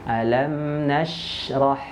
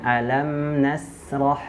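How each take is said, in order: First: The consonant is a strong, spread sh. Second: The consonant is a plain, narrow s. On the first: The speaker calls it right. "huruf shinnya kuat ya, anginnya yang menyebar di dalam mulut" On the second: The speaker calls it wrong. "jangan alam nasrah"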